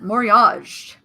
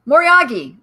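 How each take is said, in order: First: The word is said with a French-sounding accent. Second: The word is said without a French-sounding accent. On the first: The speaker calls it wrong. "I'm like doing it in a French accent" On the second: The speaker calls it right. "I'll call it Moriagi"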